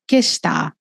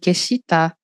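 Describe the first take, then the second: First: The 'shi' syllable fades almost to nothing. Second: The 'shi' syllable is pronounced fully and clearly. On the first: The speaker calls it right. "o "shi" ele vai sumindo" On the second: The speaker calls it wrong. "nem "keshita""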